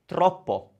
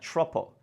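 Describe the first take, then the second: First: The word begins with a plain t sound. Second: The word begins with a ch-like sound.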